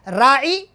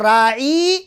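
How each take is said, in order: First: The middle vowel is short and quick. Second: The middle vowel is drawn out longer. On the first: It means pay attention to us. "जल्दी से पढ़ेंगे तो माना ख्याल करना" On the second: It means our shepherd. "या के साथ पढ़ेंगे तो माना चरवाहा हो जाता है"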